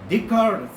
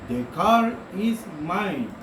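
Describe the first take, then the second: First: It is said quickly with the words run together. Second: It is said slowly with the words apart.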